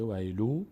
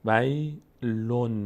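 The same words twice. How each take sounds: First: ویلو ending on an open "u", no n; ویلو with a bare vowel ending; without the nun. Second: ویلون very slow, ending in a clear n; ویلون drawn out with the final n sounded; nun pronounced. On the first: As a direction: say ویلو as "waylu", leaving off the final n. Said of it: "لام با ضمهٔ خودش بوده". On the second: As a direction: sound out ویلون as "way", pause, "lun". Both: Shown as a demonstration.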